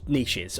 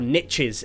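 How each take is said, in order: First: It is said in a non-American accent. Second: It is said in an American accent.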